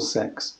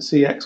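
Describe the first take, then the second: First: The name is said as a single word. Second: The name is spelled out letter by letter. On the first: "or Sex?" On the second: "shall I pronounce it C X"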